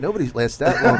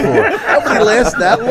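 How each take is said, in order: First: Said in the usual way. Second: Higher, louder, slowed mocking repeat; incredulous echo. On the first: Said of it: "the guy says to me". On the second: Comic repeating the manager's line back to him, mocking and laughing. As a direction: throw his words back at him in disbelief. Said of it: "I go".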